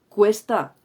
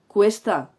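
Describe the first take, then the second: The two takes are said the same way.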